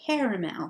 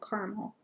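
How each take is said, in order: First: The word is pronounced in a fancy, careful way. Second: The word is pronounced in a plain, casual way.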